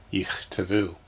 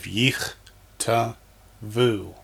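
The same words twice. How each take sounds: First: Said in the usual way. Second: "yich, ta, vu" as three isolated syllables. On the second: Shown as a demonstration. Teacher sounding out for students, "yich, ta, vu" one syllable at a time. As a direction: leave a pause after each of "yich, ta, vu". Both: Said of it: "then pronounce them".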